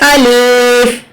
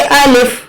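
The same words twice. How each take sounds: First: The vowel is drawn out long. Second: The vowel is held for one short beat. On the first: The speaker calls it wrong. "अलिफ ऐसा पढ़ना गलत है" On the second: The speaker calls it right. "बस एक ही हरकत पढ़ा जाएगा"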